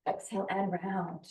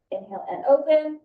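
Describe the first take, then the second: First: Soft exhale cue. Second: Inhale cue, higher and louder; rising inhale cue. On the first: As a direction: exhale cue, much softer and falling. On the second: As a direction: lift the voice on the inhale. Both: Shown as a demonstration.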